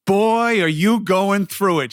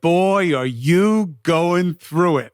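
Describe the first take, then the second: First: Lightly voiced lady, a little higher and knowing; imitating the speed walker lady. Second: Drawn-out, knowing mock of the speed walker; slow imitation of the lady. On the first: Retelling how the speed walker lady greeted him, lightly imitated. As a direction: mimic a stranger's blunt pitying remark. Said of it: "and she's like". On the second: Retelling the lady's words a second time, slowed and lightly mimicked. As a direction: stretch each word like a sympathetic stranger. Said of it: "and she was like".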